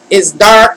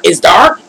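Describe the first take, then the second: First: Said in the usual way. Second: DARK rising at the end as a question; surprised check, "dark" sliding upward; questioning echo. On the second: Real, not acted. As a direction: echo it back with a rise on "dark". Questions the comment just read out.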